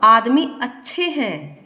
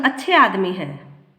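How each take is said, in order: First: Slow आदमी अच्छे हैं with weight on अच्छे; slow, admiring आदमी अच्छे हैं; emphatic praise. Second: Said in the usual way. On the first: Shown as a demonstration. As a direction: stretch अच्छे to mean very handsome. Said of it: "आदमी अच्छे हैं का अर्थ है बहुत सुंदर आदमी है". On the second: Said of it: "अच्छे आदमी है का अर्थ सामान्यतः भले हैं".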